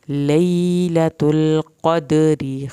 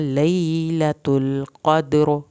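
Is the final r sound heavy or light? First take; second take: light; heavy. First: The word ends with a thin r plus i. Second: The word stops on a heavy, full r. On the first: The reciter continues without stopping. "क़दरी करेंगे तो रा के नीचे ज़ेरा रा पतला करेंगे" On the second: The reciter stops at this word. "अगर क़द्र करेंगे तो रा पुरकब करेंगे"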